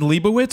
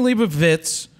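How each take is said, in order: First: The last syllable starts with a w sound. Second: The last syllable starts with a v sound. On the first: The speaker calls it wrong. "if you said Leibowitz on Jeopardy, they would not give you the answer" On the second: The speaker calls it right. "That's how you say it, not Witz, because there's a V in there"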